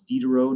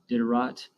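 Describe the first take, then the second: First: The final T is silent. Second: The final T is pronounced. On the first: The speaker calls it right. "but it's Diderot" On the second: The speaker calls it wrong. "Sometimes people like to pronounce that T, ... not Diderot"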